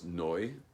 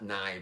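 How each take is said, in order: First: The vowel sounds like 'oy'. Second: The vowel sounds like 'eye'. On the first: The speaker calls it right. "it's a kometz under the Nud Nun, so it's Noi" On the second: The speaker calls it wrong. "It's not Nai"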